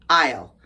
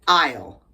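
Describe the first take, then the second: The two takes are said the same way.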